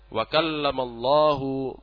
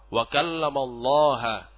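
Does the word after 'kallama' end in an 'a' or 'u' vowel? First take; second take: u; a. First: The name ends with a 'u' vowel. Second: The name ends with an 'a' vowel. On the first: God spoke to Moses. The speaker calls it right. "yang benar adalah" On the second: Moses spoke to God. The speaker calls it wrong. "Mereka rubah harokatnya, mereka rubah i'rabnya"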